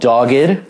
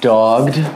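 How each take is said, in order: First: The word is said with two syllables. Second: The word is said with one syllable. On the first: The speaker calls it right. "It's called Dogged" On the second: The speaker calls it wrong. "not Dogged"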